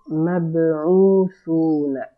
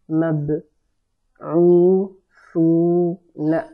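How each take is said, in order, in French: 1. Les syllabes sont lues rapidement et plus rapprochées. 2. Les syllabes sont lues lentement et séparément.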